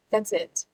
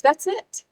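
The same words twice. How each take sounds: First: Falling that's it. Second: That's it. lifted high with a rising end. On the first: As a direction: settle That's it. down, final. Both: Real, not acted.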